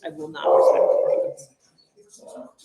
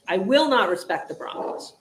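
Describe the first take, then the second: First: "I will not respect the Broncos" said slowly, each word set apart; slow, stubborn refusal spelled out word by word; slow defiant declaration. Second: Said in the usual way. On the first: Shown as a demonstration. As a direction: lay it down word by word like a solemn vow.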